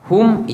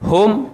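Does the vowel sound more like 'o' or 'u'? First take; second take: u; o. First: The vowel sounds like a rounded 'u'. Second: The vowel sounds like an open 'o'. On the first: The speaker calls it right. "hum itu lebih tepat" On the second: The speaker calls it wrong. "bukan H O M ... Hum kurang tepat"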